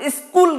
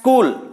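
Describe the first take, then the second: First: The word starts with a vowel before the s. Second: The word starts directly with a hissing s. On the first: The speaker calls it wrong. "स्कूल नहीं पढ़ के" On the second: The speaker calls it right. "इसको पढ़ना है स्कूल"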